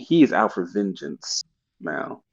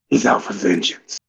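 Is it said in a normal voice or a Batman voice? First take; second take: normal voice; Batman voice. First: It is said in his normal voice. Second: It is said in a Batman voice.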